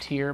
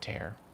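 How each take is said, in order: First: The vowel sounds like the one in 'ear'. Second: The vowel sounds like the one in 'air'. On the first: The speaker calls it wrong. "Not tier" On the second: The speaker calls it right. "but tear"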